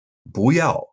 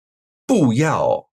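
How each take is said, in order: First: "不要" with 不 rising, 要 falling; natural "不要" rising then falling; changed tone, second-fourth. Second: "不要" with both syllables falling; slow, separate falls on 不 and 要; unchanged double fourth tone. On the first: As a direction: lift 不, then drop 要. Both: Shown as a demonstration. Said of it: "will change to second tone before a fourth tone word".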